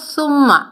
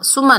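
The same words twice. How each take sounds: First: The first consonant is a soft th. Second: The first consonant is a hissing s. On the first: The speaker calls it right. "नरमी से अदा करना है" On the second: The speaker calls it wrong. "सुम्मा नहीं पढ़ना क्योंकि सीन की आवाज आएगी"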